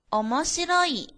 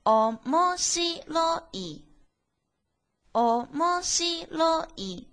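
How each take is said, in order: First: Said in the usual way. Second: 「おもしろい」第二到第四拍高，放慢; 拉长读おもしろい，最后一拍降低; 四调慢读. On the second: Shown as a demonstration. (「おもしろい」四调慢读) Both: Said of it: "这个单词应该读作".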